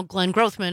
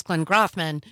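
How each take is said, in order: First: Grothman with a long o, "GROHTH-man"; original pronunciation. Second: Grothman with an open "ah", "GRAHTH-man"; altered pronunciation. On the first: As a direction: rhyme the first syllable of Grothman with "growth". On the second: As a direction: turn the o of Grothman into "ah". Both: Shown as a demonstration. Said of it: "Donald Trump pronounced it Grothman once".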